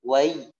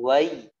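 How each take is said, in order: Both takes have the same delivery.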